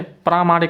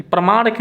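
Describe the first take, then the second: First: प्रामाणिक with a long first आ, praa; correct pronunciation. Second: प्रमाणिक with a short first vowel, pra not praa; wrong pronunciation. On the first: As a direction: lengthen the opening vowel of प्रामाणिक. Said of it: "प्रामाणिक होता है". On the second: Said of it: "प्रमाणिक नहीं होता है". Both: Shown as a demonstration.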